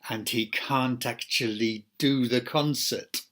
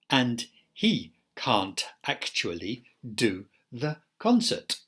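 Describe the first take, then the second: First: Words link together with mild connected-speech changes. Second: Every sound is said fully and separately. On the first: "applying connected speech rules" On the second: "isolated forms where we protect every segment"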